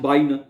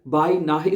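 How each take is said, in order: First: It is run together with no h sound. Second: It is split, with an h before the end. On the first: The speaker calls it right. "लफज इस तरह बाइना पढ़ना है" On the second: The speaker calls it wrong. "इसको बाई नाहे नहीं पढ़ना"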